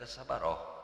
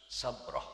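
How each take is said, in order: First: A vowel sounds between the b and r. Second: The b runs straight into the r. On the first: The speaker calls it wrong. "ulah dibaca sabaroh" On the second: The speaker calls it right. "macana kalawan patah jeung sukun"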